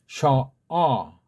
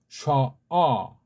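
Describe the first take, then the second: No difference in how they are said.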